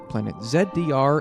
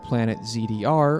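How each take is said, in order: First: The letters are said in an imitated, different pronunciation. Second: The letters are said in an ordinary pronunciation.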